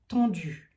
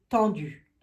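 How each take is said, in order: First: Tendues with a rounded o, like tondues; sounds like tondu. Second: Tendues with a clear nasal an; correct tendues. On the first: Card reader stumbling on tendues, saying it like tondues. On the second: Card reader correcting her slip, saying Tendues properly. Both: Shown as a demonstration. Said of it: "On tond un mouton".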